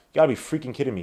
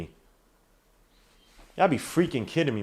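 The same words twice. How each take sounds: First: Said in the usual way. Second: Soft, very slow, drawn-out disbelief; slow exasperation. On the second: Real, not acted. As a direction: space out "freaking kidding me" in disgust. Disgusted repeat, drawn out.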